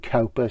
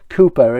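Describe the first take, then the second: First: The first vowel sounds like 'cow'. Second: The first vowel sounds like 'too'. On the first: This follows the spelling, to help look the name up. "We call him Cowper, so we know for the spelling" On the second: This is how the name is really pronounced. "Cooper is the real pronunciation"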